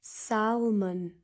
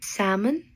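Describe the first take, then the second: First: The L sound is clearly pronounced. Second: The L sound is silent.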